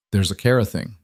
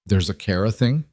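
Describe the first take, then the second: First: Said in the usual way. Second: Rising, half-surprised there's a Kara thing?; surprised question. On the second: A narrator's reading. Vivian hears news about Kara, rising in surprise.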